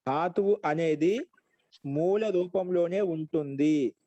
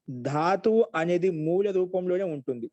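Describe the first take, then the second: First: Slow phrases with drawn-out endings; slow dictation. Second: Said in the usual way. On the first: Shown as a demonstration. Slow dictation for note-taking. (నెమ్మదిగా రాయించే స్వరం)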